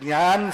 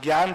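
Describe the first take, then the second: First: The word begins with a j sound. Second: The word begins with a g sound. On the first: The speaker calls it right. "जे से जब शुरू होती है तो" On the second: The speaker calls it wrong. "सामान्य लोग रूली में ... सब जी से शुरू करते"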